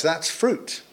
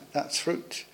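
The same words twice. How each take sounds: First: Said in the usual way. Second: Softer, whispered repeat; whispered echo. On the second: Real, not acted. Preacher to congregation, echoing the point in a whisper. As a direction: let it sink in, hushed. Quiet echo of the same phrase.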